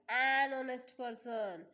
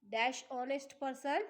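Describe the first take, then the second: First: Slow, with the word an leaned on; stress on an. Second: Said in the usual way. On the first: Shown as a demonstration. Teacher stresses an for her class. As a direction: land clearly on an before honest.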